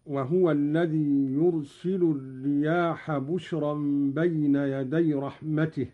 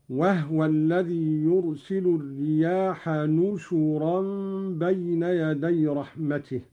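First: Said in the usual way. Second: نشرا said nushuran, with n and u on the shin; n with damma on shin. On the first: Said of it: "بالنون مكان الباء". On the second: Shown as a demonstration. Sheikh demonstrating Qalun's reading, نشرا as nushuran. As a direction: say نشرا as nu-shu-ran, starting on n instead of b. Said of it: "بالنون مكان الباء وضم الشين، هكذا".

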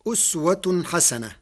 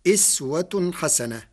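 First: أسوة said with damma on the hamza, uswa; Hafs reading. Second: إسوة said with kasra on the hamza, iswa; Warsh reading. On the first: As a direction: recite أسوة starting with u. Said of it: "قرأ ورش كلمة أسوة". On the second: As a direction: say إسوة starting with i. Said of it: "بكسر الهمزة". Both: Shown as a demonstration.

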